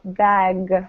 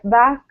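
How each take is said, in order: First: The final g is voiced strongly. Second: The final g is weak and sounds like k. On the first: The speaker calls it right. "really emphasize the G" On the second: The speaker calls it wrong. "If the G isn't strong enough, it sounds like a K"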